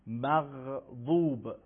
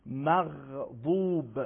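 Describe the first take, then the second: First: مغضوب said slowly with a hard q-like غ; the incorrect hard-stop غ in مغضوب; wrong pronunciation. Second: The correct throaty fricative غ in مغضوب; correct pronunciation. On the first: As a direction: model the common mistake in مغضوب. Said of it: "مغضوب غلطه". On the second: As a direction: model the right غ in مغضوب. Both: Shown as a demonstration.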